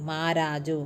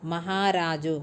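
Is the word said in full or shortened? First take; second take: shortened; full. First: The middle syllable is dropped, shortening the word. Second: Every syllable of the word is said in full.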